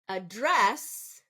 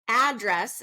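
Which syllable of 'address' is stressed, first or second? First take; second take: second; first. First: The stress is on the second syllable. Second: The stress is on the first syllable. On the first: It is used as a verb. "Address is going to be a verb" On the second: It is used as a noun. "address is going to be a noun"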